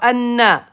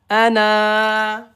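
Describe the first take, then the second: First: The final vowel is short, not lengthened. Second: The final vowel is held long. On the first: The speaker calls it wrong. "Pas Anna" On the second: The speaker calls it right. "mais prolongé par Alif"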